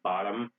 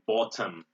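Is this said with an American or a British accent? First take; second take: American; British. First: It is said with an American accent. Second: It is said with a British accent. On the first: "in American English you would say bottom" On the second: "In British English you would say bottom"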